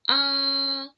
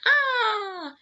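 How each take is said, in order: First: The pitch stays flat and level. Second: The pitch falls sharply downward. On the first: "For the first tone is flat" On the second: "the pitch for the fourth tone is like you're screaming or you're falling down"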